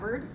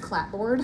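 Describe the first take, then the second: First: It is said reduced, sounding like clabbered. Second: It is said as two full parts, clap-board. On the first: The speaker calls it right. "It's clabbered" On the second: The speaker calls it wrong. "is not pronounced clapboard"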